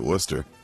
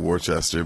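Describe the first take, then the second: First: The name is said in a shortened, reduced form. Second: The name is sounded out the way it is written. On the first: This is how the locals say the name. The speaker calls it right. "I believe they pronounce it Worcester" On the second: This is how the name looks in writing. The speaker calls it wrong. "I know it looks like Worcester"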